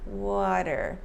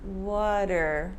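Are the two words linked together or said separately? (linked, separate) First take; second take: linked; linked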